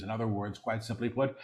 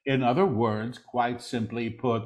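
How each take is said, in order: First: Quick, soft undertone; hushed preview. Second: Deliberate full-voice repeat; measured proclamation. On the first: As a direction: say it softly and rapidly before proclaiming it. Quick soft take before repeating aloud. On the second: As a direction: proclaim it clearly, word by word. Same words repeated in full voice. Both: Real, not acted.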